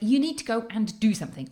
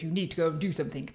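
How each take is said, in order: First: It is said in the speaker's normal voice. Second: It is said in a much lower voice.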